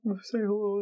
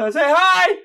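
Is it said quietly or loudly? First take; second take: quietly; loudly. First: It is said quietly and timidly. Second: It is said loudly and clearly.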